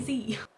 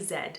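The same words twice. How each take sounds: First: It is said the American way, as zee. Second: It is said the British way, as zed.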